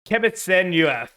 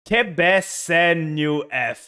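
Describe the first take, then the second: First: The name is said at a faster pace. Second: The name is said at a slower pace.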